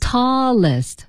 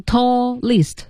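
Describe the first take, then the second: First: "Tallest" with L closing the first syllable; tall-lest, L in both syllables; linked L. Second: "tallest" as taw, then list; L only starting the second syllable; split syllables. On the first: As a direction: hold the L across "Tallest". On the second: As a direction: divide "tallest" after an open first vowel. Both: Shown as a demonstration. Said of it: "就不能读成tallest".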